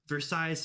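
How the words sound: It is said the way most people say it. "to the rest of the world"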